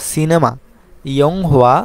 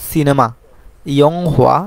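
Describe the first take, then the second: No difference in how they are said.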